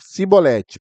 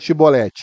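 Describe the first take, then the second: First: The word begins with an 's' sound. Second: The word begins with a 'sh' sound. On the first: The speaker's accent gives them away. "por causa do sotaque" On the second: This is the form that is asked for. "fala Chibolete"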